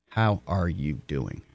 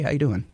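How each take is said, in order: First: It is said slowly and earnestly, as a question. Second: It is said quickly and lightly, as a greeting. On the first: It genuinely asks about the person's wellbeing. The speaker calls it right. "A real question, not a greeting" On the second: It is only a passing hello. The speaker calls it wrong. "Don't say like a greeting"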